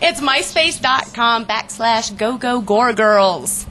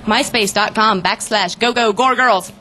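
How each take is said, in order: First: It is said at normal speed. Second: It is said very fast.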